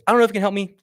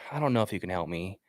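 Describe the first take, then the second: First: It is said in a confident, assertive tone. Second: It is said softly in an apologetic tone. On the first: The caller seems too professional and scares people. The speaker calls it wrong. "what if I'm too confident?" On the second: The caller seems lost, so people want to help. The speaker calls it right. "it's super soft. It's it's apologetic"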